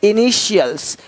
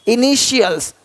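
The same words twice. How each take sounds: No difference in how they are said.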